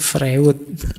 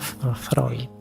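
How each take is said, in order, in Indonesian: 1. Nama itu dibaca sesuai ejaannya. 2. Nama itu diucapkan dengan cara biasanya. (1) "tulisannya Freud" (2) "bacanya Freud"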